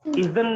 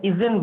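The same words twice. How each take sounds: First: "Isn't" with a neutral schwa, izn; wrong pronunciation. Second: "isn't" as iz-en, clear short E; corrected pronunciation. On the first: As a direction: say "Isn't" as iz-un, second vowel swallowed. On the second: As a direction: say "isn't" with an E in the second syllable, silent T. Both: Shown as a demonstration. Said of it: "isn't बनता है".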